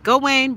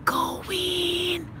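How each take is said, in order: First: Higher-pitched cheering on a player; tennis cheer. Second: High, soft, drawn-out cheer; tiny stifled squeal cheering on a player; hushed cheer. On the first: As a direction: imitate your own courtside cheer. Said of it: "I just be like". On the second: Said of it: "I just go". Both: Retold or imitated.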